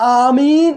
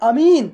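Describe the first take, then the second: First: The first vowel is long and drawn out. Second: The first vowel is short, not drawn out. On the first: "ആമീൻ എന്നതാണ് പ്രബലം, നീട്ടിയിട്ട്" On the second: "ബിൽ ഖസ്വരി അയ്യവൻ, അതായത് ആ എന്ന് നീട്ടാതെ"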